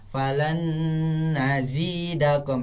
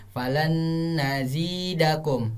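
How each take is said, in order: Both takes have the same delivery.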